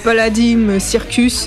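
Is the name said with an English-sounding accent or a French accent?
French. The name is said with a French accent.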